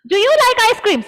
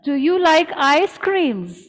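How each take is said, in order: First: It is shouted in a harsh, scolding voice. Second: It is asked in a calm, friendly voice. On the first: The speaker seems to be scolding someone. The speaker calls it wrong. "Half of you all were screaming" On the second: The speaker is simply asking someone. The speaker calls it right. "You're asking someone"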